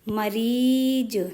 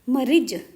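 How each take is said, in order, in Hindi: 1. दूसरे अक्षर का स्वर लंबा है। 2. दूसरे अक्षर का स्वर छोटा है। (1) "बड़ी ई की मात्रा का उच्चारण थोड़ा छोटी ई से ज़्यादा होता है" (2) "अब यदि इसमें छोटी की लगा दूं मैं तो क्या हो जाएगा"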